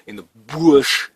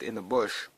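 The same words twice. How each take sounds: First: Put-on loud, drawn-out Australian crocodile-man accent; thick Australian accent. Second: Said in the usual way. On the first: Prepper jokily imitating the crocodile guy, hammed-up Australian accent. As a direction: put on a broad Australian accent, leaning on BUSH. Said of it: "with my thick Australian accent". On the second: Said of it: "I'll say it like the".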